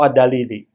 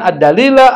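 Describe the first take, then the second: First: The word ends with an i vowel. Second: The word ends with an a vowel.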